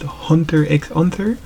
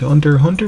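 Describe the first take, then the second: First: The middle X is spoken aloud. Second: The middle X is left silent. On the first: "some persons like to pronounce the X" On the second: "I don't really pronounce the X. I just call it"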